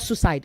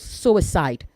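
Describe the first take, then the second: First: The word is said with fewer than three syllables. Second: The word is said with three full syllables. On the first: The speaker calls it wrong. "not suicide" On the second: The speaker calls it right. "There are three syllables"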